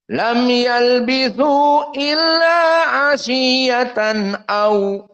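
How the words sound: The word runs straight on into the next word. "Karena bersambung dibaca"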